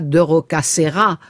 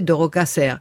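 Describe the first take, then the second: First: The final vowel of the name is pronounced. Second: The final vowel of the name is dropped. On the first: The speaker calls it wrong. "on disait pas de Rocasserra" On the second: The speaker calls it right. "on disait de Rocasserre. C'est comme, on mange la fin des mots"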